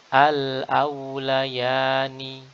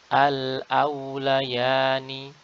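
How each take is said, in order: Both takes have the same delivery.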